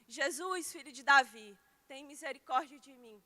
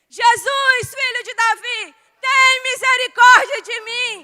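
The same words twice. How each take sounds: First: It is called out at ordinary loudness. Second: It is shouted much more loudly.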